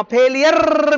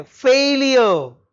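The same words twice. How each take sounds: First: "फेलियर" with a long rolled r at the end; wrong pronunciation. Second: "फेलियर" slow, as FAIL-i-yuh with silent r; correct pronunciation. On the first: Teacher showing what it is not, "फेलियर" with over-rolled final r. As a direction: trill the final r of "फेलियर" heavily. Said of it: "फेलियर भी नहीं है". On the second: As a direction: draw out "फेलियर", falling, no r at the end. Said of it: "भी नहीं है". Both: Shown as a demonstration.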